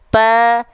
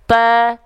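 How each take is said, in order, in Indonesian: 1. Huruf ta hanya punya hembusan napas yang ringan. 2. Huruf ta hanya punya hembusan napas yang ringan.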